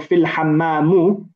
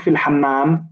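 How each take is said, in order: First: The last word ends with a final u vowel. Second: The last word ends without a final vowel. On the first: "you've forgotten or you've not understood the ruling" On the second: "we we don't say fil hammam"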